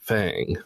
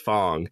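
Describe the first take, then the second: First: The vowel sounds like the one in 'cat'. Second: The vowel sounds like the one in 'long'. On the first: The speaker calls it right. "the characters in the game pronounce it Fang" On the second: The speaker calls it wrong. "I almost accidentally pronounced Fang as Fong"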